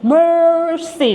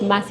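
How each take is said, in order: First: The r sound is strong and rolled. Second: The r sound is weak and unrolled. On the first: The speaker calls it right. "your name is Mercy. Like you have to roll" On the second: The speaker calls it wrong. "now your name is not Mercy"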